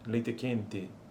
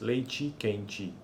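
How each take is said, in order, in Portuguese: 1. As vogais finais soam como um e médio. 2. As vogais finais soam como um i alto. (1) "pronuncia-se com, como médias as vogais em posição ata no final" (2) "em outras regiões aparecem como altas"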